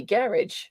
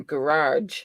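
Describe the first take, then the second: First: "garage" as GARR-idge, stress up front; British-style garage. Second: "garage" as guh-RAHZH, stress on the second syllable; old-habit garage. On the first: Picked up from a UK husband, GARR-idge "garage". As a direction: say "garage" to rhyme with carriage. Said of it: "but I say garage now". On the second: Telling how it's always been said, guh-RAHZH "garage". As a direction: say "garage" with a long ah at the end. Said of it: "it's always been garage". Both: Shown as a demonstration.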